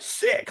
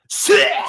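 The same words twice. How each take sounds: First: It is said with ordinary energy. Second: It is said with full, exaggerated energy.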